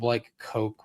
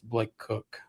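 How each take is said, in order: First: The surname has a long o vowel. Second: The surname has a short oo vowel. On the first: The speaker calls it wrong. "you called him Blake Coke" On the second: The speaker calls it right. "when it's Blake Cook"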